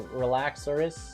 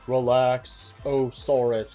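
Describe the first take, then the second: First: The name is said without the 'saur' syllable. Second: The name includes an extra 'saur' syllable. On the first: This is the technically correct name. The speaker calls it right. "technically they're simply Relaxorus" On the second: This is how other people say it. The speaker calls it wrong. "people pronounce them as Relaxosaurus"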